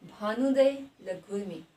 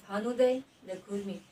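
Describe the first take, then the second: First: भानुदय pressed slow and loud, लघुर्मी said in one quick go; slow, emphatic भानुदय with quick लघुर्मी; stress demo. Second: Said in the usual way. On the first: Shown as a demonstration. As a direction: lean hard on भानुदय, then rush लघुर्मी. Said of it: "यहाँ पर जोर पड़ रहा है और ये एकदम से उच्चारण हो रहा है". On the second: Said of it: "यहाँ पर जोर पड़ रहा है".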